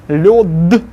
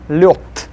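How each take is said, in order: First: The final consonant is voiced. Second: The final consonant is voiceless.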